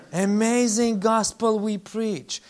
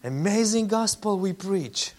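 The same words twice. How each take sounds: First: AMAZING drawn out slowly and leaned on, the whole line slower; preacher savoring Amazing, slow and deliberate; slow emphatic repeat. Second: Said in the usual way. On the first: Shown as a demonstration.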